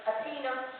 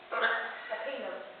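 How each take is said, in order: First: Said in the usual way. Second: Slow and drawn out. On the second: Shown as a demonstration. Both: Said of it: "you said them very quickly".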